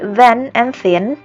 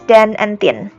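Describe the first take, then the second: First: The words are said with standard English sounds. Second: The words are said with patois sounds. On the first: "there are some words like then and thin" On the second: "which are pronounced as then and thin"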